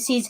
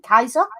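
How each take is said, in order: First: The name begins with a soft S sound. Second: The name begins with a hard K sound. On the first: This is the familiar modern form of the name. "I'm calling him Caesar because that's what everyone knows him as" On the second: This is how it was said in Latin. "there is no soft C in Latin. It would have been Kaiser"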